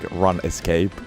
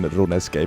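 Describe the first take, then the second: First: It is split into run and escape. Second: It is said as rune and scape. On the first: "I don't know if I should be pronouncing it like Run Escape" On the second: "that's always been RuneScape for me"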